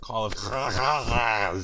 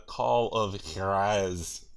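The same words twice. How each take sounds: First: Loud, slow, guttural JUAREZ; "Juarez" hacked out from the throat, hugely hammed-up; exaggerated throat-clearing. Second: Drawn-out JUAREZ; "Juarez" stretched out with mock grandeur; hammed-up title. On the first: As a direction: stretch "Juarez" into a long, loud throaty rasp. Topping each other's title pronunciation. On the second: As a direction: say "Juarez" slowly with a throaty first sound. Hamming up the game title.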